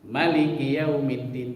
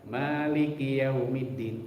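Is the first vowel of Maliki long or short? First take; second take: short; long. First: The first vowel of Maliki is said short. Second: The first vowel of Maliki is held long. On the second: "panjang maknya"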